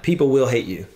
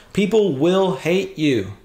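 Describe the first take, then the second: First: Said in the usual way. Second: Slow emphatic reading, stress on people; grave, deliberate warning; slow and weighty. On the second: Shown as a demonstration. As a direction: lean hard on "People will hate you". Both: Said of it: "He just says that".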